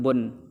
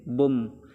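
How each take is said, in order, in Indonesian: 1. Suku kata itu diakhiri bunyi n. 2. Suku kata itu diakhiri bunyi sengau m. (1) "Harusnya kan bun" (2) "tanwin un bertemu dengan mim, maka hukumnya idgham bi gunnah"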